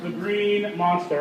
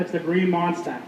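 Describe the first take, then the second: First: Said in the usual way. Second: Boston accent, Monster as "Monstah"; Boston accent, drop the r in Monster. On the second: Shown as a demonstration. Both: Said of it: "want to throw in your Boston accent".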